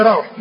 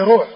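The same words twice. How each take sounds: First: روح said RAWH; روح with open a before the w; correct fatha form. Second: روح said ROOH; روح with rounded vowel after the r; later damma form. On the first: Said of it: "والصواب فيه". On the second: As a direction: say روح as ruuh, long u. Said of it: "والمتأخرون". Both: Shown as a demonstration.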